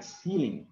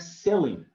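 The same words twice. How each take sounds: First: CEILING with a long EE, SEE-ling; alternative pronunciation. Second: CEILING with a short E, SEL-ing; CEILING as SEH-ling; one variant pronunciation. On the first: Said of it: "Sometimes you pronounce it like ceiling". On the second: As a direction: say "ceiling" with the vowel of "sell". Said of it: "Sometimes you pronounce it like". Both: Shown as a demonstration.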